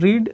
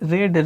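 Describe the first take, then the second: First: The vowel is long, like 'reed'. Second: The vowel is short, like 'red'. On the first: It is the present form of the verb. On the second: It is the past or past participle form.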